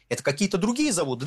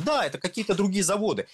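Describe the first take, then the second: First: Mock-innocent question, the pitch rising a little; mock puzzled question. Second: Dry mock agreement, pitched up; ironic confirmation. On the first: Host asks radio listeners with feigned innocence, mock puzzled. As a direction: play dumb, as if asking the listeners. Rhetorical self-question about refineries. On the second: Host answers his own question for the audience, ironic. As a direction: answer yourself with sarcastic certainty.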